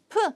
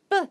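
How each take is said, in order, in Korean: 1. p는 거센소리예요. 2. p는 된소리예요, 거센소리가 아니에요. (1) "P 발음이 아니라" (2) "된소리로 이제 발음이 된다"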